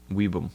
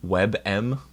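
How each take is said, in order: First: Weebum with a long ee, falling; trying a pronunciation. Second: WebM as web-em, rising like a question; trying a pronunciation. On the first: Streamer testing the other version, falling. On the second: Streamer testing how WebM sounds, questioning. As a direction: ask it: WebM?. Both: Shown as a demonstration. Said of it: "How do you pronounce".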